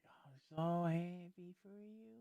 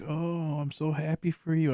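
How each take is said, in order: First: Slow, soft, high sarcastic congratulation; through-the-teeth fake joy, slowly; slow soft sarcastic cheer; fake happiness. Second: Mock cheerful congratulation; mild mock cheer; fake happiness. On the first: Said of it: "I'm sitting here like". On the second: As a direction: fake a happy tone. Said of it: "I'm just sitting here like".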